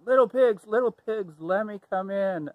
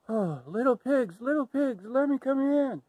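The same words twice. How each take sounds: First: High, loud wolf call at the door. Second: High, breathless plea to the pigs; out of breath wolf. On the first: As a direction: call the pigs out boldly, pitched up. Wolf calling to the pigs. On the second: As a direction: call them while still catching your breath. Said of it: "he was huffing and puffing". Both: Acted.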